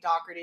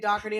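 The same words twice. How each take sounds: First: The name is said with an Irish pronunciation. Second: The name is said with a Boston pronunciation. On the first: "if you're in Ireland, it could be Doherty" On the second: "it could be Doherty in Boston and Philly"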